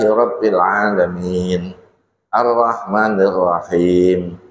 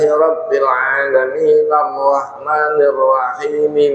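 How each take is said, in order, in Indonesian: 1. Jeda setelah 'Alamin', tanpa vokal akhir. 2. 'Alamin' disambung, vokal akhirnya dibaca. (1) "ayat per ayat, itu harus disela dengan nafas" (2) "Yang benar adalah harokat asli dibaca"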